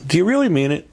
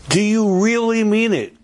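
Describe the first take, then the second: First: High "really", asked briskly; pointed question. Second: "really" stretched out very high; insistent challenge. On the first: Speaker challenging listeners about the Seder invitation, pointed high "really". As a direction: press "really" with raised pitch. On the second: Speaker challenging listeners harder on their invitation, high insistent "really". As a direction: hold "really" high, then drop on "it". Repeats the challenge more forcefully. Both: Real, not acted.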